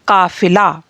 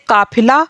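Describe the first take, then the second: First: The middle consonant is an f sound. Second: The middle consonant is a breathy p sound. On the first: "नुक्ता लगा देने से हमने इसको क्या बोला" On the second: "वैसे हम इसको बोलते काफिला"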